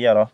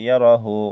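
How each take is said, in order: First: The word ends without the final vowel. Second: The word ends with a full 'hu' sound.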